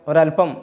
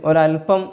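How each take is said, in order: No difference in how they are said.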